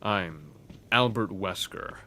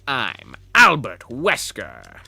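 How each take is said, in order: First: It is a plain, ordinary Wesker voice. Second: It is a dramatic, raspy Wesker voice.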